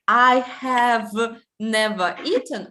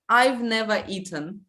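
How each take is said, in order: First: I have is said as two full words. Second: I have is shortened to one syllable. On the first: The speaker calls it wrong. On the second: The speaker calls it right.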